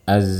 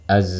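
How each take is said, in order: The two takes are said the same way.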